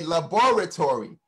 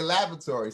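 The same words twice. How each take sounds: First: "laboratory" with a full, stressed BOR in the middle; accented, every syllable emphasized. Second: "laboratory" with the middle vowel dropped; American kids' pronunciation. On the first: Speaker showing how their accent says it, every syllable emphasized. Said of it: "we emphasize every syllable". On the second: Showing how the American kids say it, middle syllable missed. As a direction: say "laboratory" as LAB-ruh-tory, stressed on the first syllable. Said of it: "the kids say laboratory". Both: Shown as a demonstration.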